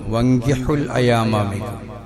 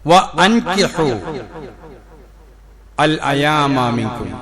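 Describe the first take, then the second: First: The 'wa' runs straight into 'nkihu'. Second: The 'wa' is separated, with a glottal catch. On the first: You must marry. The speaker calls it wrong. "അറിയാതെ വങ്കിഹു അൽ അയാമ മിൻകും എന്നോതും" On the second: You must give them in marriage. The speaker calls it right. "നിങ്ങൾ ഇണകളെ കണ്ടെത്തിച്ചു കൊടുക്കണം"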